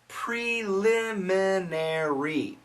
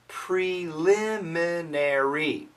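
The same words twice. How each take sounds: No difference in how they are said.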